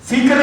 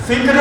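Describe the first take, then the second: The two takes are said the same way.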